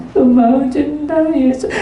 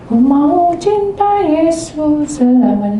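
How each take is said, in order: First: Higher, slow mumbled sung imitation of the girl; a hint of a girl's unclear singing. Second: Sung, higher, slow and clear worship song; clear, slow sung worship line; sung clearly. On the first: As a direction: sing it half-heartedly and unclearly, like the girl. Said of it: "Tapi tidak sejelas". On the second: Retold or imitated. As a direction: sing the line out clearly, leading the girl.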